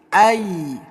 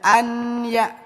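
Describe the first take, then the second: First: The n blends into a nasal, held y. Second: A clear n is heard before the y. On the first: The speaker calls it right. "tapi ai. Nunnya ditempelkan ke huruf ya" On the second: The speaker calls it wrong. "Jangan dibaca an ya"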